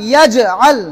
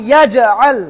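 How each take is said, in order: The two takes are said the same way.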